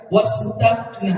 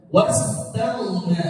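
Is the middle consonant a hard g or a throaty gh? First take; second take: hard g; throaty gh. First: The middle consonant is a hard g sound. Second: The middle consonant is a throaty gh sound. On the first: The speaker calls it wrong. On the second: The speaker calls it right.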